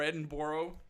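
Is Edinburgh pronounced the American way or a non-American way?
American. Edinburgh is said the American way.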